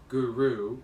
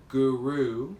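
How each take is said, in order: The two takes are said the same way.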